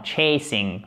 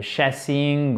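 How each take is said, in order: First: "chasing" said "tchay-sing" with a "tch" and the "ay" diphthong; correct chasing. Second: "chasing" said "sha-sing" with a French "sh" and a flat "a"; wrong French-style chasing. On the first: Teacher correcting the class, "chasing" with a "tch" and the "ay" diphthong. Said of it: "en plus, c'est une diphtongue". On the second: Teacher showing the francophone error, "chasing" as a French "sha-sing". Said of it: "Non, non, chasing". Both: Shown as a demonstration.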